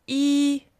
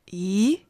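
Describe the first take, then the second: First: Yi held high and level; first tone. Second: Yi rising like a question; second tone. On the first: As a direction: keep yi flat and high. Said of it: "First tone". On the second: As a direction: let yi climb upward. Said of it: "Second tone". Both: Shown as a demonstration.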